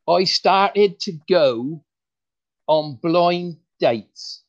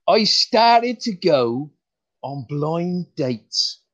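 First: Slow, deliberate punchline setup; first try at the joke, stretched out; slow joke delivery. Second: Slow, deliberate retake of the line; retelling the joke properly, stretched out; slow joke delivery. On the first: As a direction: draw out each word for the joke. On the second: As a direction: stretch the setup, leave a pause for the laugh. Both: Shown as a demonstration. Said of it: "let's start that again".

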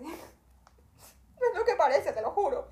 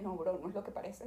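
First: Slow, high, laughing through the words; laughing plea. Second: Said in the usual way. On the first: Retold or imitated. Traveller laughs and pleads with the airport agent, high and slow. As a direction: laugh as you swear it's innocent. Laughing retake of her excuse.

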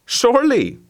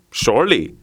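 First: Surely jumps high and falls, eager yelp. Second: Said in the usual way. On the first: A narrator's reading. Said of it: "eager dog repeating himself". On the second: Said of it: "second, calmer repeat".

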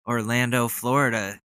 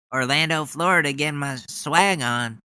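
First: Said in the usual way. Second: Higher, pumped-up rally-speaker voice; mock hype. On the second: Mocking the senator with pumped-up rally hype. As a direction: ham up the swagger like a rally crowd-pleaser. Hyping it like the politician.

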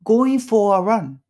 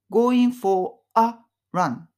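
First: "going for a run" said as "goi-fora-run", "a" swallowed; linked a. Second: "going for a run" with the "a" blurred into "for"; linked a. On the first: Teacher demonstrates linking the words together. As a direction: glide "for a" together without a clear "a". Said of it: "くっつけちゃう". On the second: Teacher shows how "a" melts into "for". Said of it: "このあをはっきり発音しないんですよね". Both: Shown as a demonstration.

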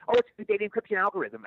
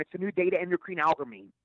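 First: "data encryption algorithm" said cleanly off the card; read correctly. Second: "It's a new day to endocrine algorithm" said as a garbled mix-up; flubbed line. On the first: Actor finally reading the line right off the card, clean. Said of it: "I read it off the card". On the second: Actor flubbing his line for the director, garbled words. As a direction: mangle "encryption" into "endocrine", "data" into "day to". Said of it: "I kept going". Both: Retold or imitated.

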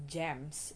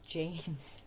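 First: James with a short E, "Jems"; wrong pronunciation. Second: James with a long A; correct pronunciation. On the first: Vlogger showing how not to say James, mispronounced. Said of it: "it's not James". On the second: Vlogger correcting listeners on James, correct pronunciation. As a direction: model James as "Jaymz". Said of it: "it's James". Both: Shown as a demonstration.

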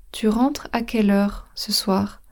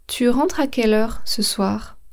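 The two takes are said the same way.

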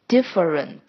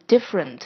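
First: "different" in three syllables, DIF-uh-rent; unelided schwa. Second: "different" in two syllables, DIF-rent; elided schwa. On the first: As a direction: keep the middle schwa in "different", sounding every syllable. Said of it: "如果是不省略的话". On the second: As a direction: drop the middle schwa of "different". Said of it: "我们都念成". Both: Shown as a demonstration.

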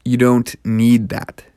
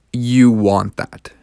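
First: "You don't need that" slowed down, pressing "don't"; slow and firm on "don't need"; stress on don't need. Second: "you want that" drawn out slowly with weight on "want"; stress on want. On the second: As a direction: lean on "want", slow and deliberate. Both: Shown as a demonstration. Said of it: "those are two different things".

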